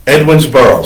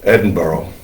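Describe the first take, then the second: First: "Edwinsboro" said in full as Edwins-boro, every syllable given; "Edwinsboro", each part of the compound sounded out; spelled-out pronunciation. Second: "Edinburgh" run together quickly, the sounds of "Edwinsboro" slurred into it; quick, contracted "Edinburgh" that shows the old name inside; "Edinburgh" said fast so that it grows out of "Edwinsboro". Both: Shown as a demonstration. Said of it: "say it fast".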